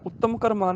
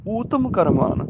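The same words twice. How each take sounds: First: ਉੱਤਮ with short u and doubled t; wrong vowel. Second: ਊਤਮ with long u and single t; correct vowel. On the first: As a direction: softly say ਉੱਤਮ as ut-tam. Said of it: "ਨਹੀਂ". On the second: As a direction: stretch oo at the start of ਊਤਮ. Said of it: "ਉੱਤਮ ਕਰਮਾਨ ਨਹੀਂ". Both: Shown as a demonstration.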